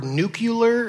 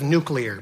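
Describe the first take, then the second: First: "nuclear" said as NOO-kyuh-ler; Southern-president slip, "nuclear" as nucular; mispronounced "nuclear". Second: Said in the usual way. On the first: Retold or imitated. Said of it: "causes you to say the word nuclear instead of nuclear". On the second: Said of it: "instead of nuclear".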